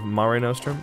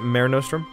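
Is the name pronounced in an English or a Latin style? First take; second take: Latin; English. First: The name is said with Latin-style vowels. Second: The name is said with English-style vowels. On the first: The speaker is mimicking an ancient Roman. The speaker calls it wrong. "instead of Mare Nostrum because, you know, I'm not Latin" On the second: The speaker does not claim to be Latin. The speaker calls it right. "I'll pronounce it Mare Nostrum"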